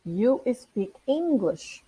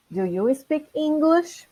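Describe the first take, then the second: First: "You speak English." said slow and soft with a falling end; statement. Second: "Do you speak English?" slow with a rising end; question. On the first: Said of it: "Quando eu afirmo". (afirmação lenta, tom descendo) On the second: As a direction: ask "Do you speak English?" lifting the last word. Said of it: "apertar o botão da pergunta". (pergunta lenta, tom subindo no fim) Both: Shown as a demonstration.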